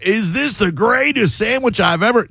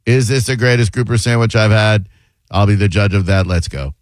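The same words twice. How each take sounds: First: High-pitched, over-the-top gushing; hammed-up announcer-style excitement, pitched way up; putting on airs. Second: Monotone impression. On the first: Shown as a demonstration. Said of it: "to put on any airs". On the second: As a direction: imitate someone talking with no airs at all. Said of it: "fun of him for that monotone".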